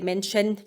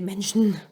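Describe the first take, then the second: First: The final syllable keeps a full e vowel. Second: The final syllable is said without the e. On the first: The speaker calls it wrong. "we're just too tired to say Menschen" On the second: The speaker calls it right. "We just say Menschen"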